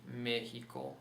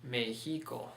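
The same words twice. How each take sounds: First: Mexico stressed as ME-hi-co, with an h for the x; stress on first syllable. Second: Mexico wrongly stressed as me-HI-co, with an h for the x; stress on middle syllable. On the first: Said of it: "Put the stress mark on that initial syllable". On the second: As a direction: move the stress of Mexico onto HI. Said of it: "if we didn't have that stress mark". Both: Shown as a demonstration.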